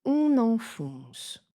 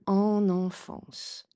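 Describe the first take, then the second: First: "on enfonce" very slow, starting with a round "on"; slow "on" nasal. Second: "en enfance" very slow, with open "an" sounds; slow "an" nasals. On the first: Teacher giving learners the right answer, very slow. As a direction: drag out "on enfonce". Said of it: "j'ai dit". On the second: Teacher showing the wrong option to learners, very slow. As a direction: drag out "en enfance". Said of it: "je n'ai pas dit en enfance". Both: Shown as a demonstration.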